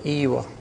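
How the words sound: The word starts with a close 'ee' vowel. This is the countryside form of yes. The speaker calls it right. "In the countryside, they say Iwa"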